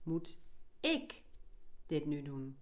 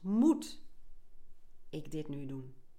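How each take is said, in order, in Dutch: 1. De klemtoon ligt op het woord ik. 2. De klemtoon ligt op het woord moet. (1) "De volgende is" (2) "De eerste keer leg je de klemtoon op het eerste woord"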